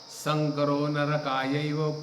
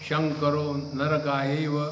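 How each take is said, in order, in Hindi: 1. पहला शब्द s ध्वनि से शुरू होता है। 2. पहला शब्द sh ध्वनि से शुरू होता है। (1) "the mantra was" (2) "Sa is pronounced as Sh"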